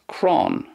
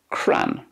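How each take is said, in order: First: The vowel sounds like the 'aw' in lawn. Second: The vowel is a short flat 'a'. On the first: "In Connacht, then, it's more like crawn" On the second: "And then in Ulster, cran"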